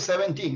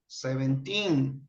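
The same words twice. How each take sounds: First: The stress is not on the last syllable. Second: The stress is on the last syllable. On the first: The speaker calls it wrong. "No, no, no. You say seventeen. No" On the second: The speaker calls it right. "the accent is on teen"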